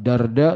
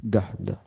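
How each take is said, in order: First: "Darda" said with an r closing the first syllable; wrong pronunciation. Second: "Dahdah" said with an h closing the first syllable; correct pronunciation. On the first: Teacher showing listeners the wrong name, "Darda" with an r. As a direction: say "Darda" with an r before the second d. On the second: Teacher correcting the name for listeners, "Dahdah" with an h. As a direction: say "Dahdah" with h in place of r. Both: Shown as a demonstration. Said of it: "Bukan Darda, tapi Dahdah".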